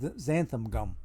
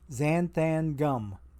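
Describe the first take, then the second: First: The first word ends with an 'um' sound. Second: The first word ends with an 'an' sound. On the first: The speaker calls it wrong. "I mispronounced it the first time around. I said xanthan gum" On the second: The speaker calls it right. "it doesn't end with U M. It ends with A N"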